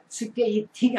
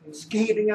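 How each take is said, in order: First: It is said the way Korean speakers say it. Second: It is said the way Americans say it. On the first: The speaker calls it wrong. "절대로 스케이팅 안 한다고요" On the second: The speaker calls it right. "그네들은 천천히 해봐도 스케이팅입니다"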